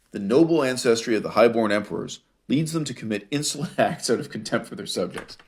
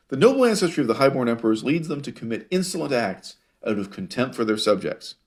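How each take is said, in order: First: Reading through suppressed laughter; laughing while reading. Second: Said in the usual way. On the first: Real, not acted. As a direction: read it with amusement creeping in. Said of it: "Sorry, I'm laughing".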